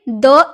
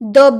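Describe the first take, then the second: First: The word is pronounced with a long 'ee' vowel. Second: The word is pronounced with a short 'uh' vowel. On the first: The next word begins with a vowel sound. "इसका pronounce हम दी में करेंगे" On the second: The next word begins with a consonant sound. "इसका pronounce हम द में करेंगे"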